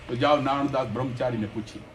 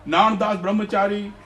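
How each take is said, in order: First: Said in the usual way. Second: નાણદાસ Brahmachari called out higher and louder; emphatic name. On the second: Real, not acted. The preacher names the devotee to his listeners, ringing out નાણદાસ. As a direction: proclaim નાણદાસ Brahmachari with weight, stressing નાણદાસ. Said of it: "repeated name with emphasis".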